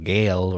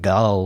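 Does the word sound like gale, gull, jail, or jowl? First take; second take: gale; gull. First: It starts with a hard g and rhymes with pale. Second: It starts with a hard g and has a short u. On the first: "or gale" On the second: "not like gull"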